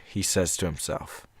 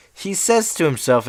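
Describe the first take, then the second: First: Said in the usual way. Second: "says" lifted high and stressed, read back in surprise; higher pitched reread with "says" stressed. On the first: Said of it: "He says to himself" is also in the quotations". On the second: Shown as a demonstration. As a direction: reread "He says to himself", leaning hard on "says". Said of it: "is also in the quotations".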